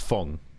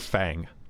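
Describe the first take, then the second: First: The vowel sounds like the 'u' in cup. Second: The vowel sounds like the 'a' in cat. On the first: The speaker calls it right. "It's it's Fung. there's there's no a" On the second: The speaker calls it wrong. "everyone calls her Fang"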